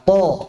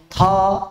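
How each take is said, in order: First: The consonant is released without audible breath. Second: The consonant is released with audible breath. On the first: The speaker calls it right. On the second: The speaker calls it wrong. "misalnya baca dengan hams"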